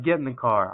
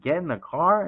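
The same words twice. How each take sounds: First: Said in the usual way. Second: Higher questioning repeat, rising at the end; incredulous echo. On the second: Retold or imitated. Salesman answers the cop's order, incredulous echo.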